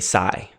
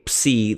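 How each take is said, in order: First: It is pronounced in the Erasmian academic style. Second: It is pronounced in a modern Greek style. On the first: "they say" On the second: "I say"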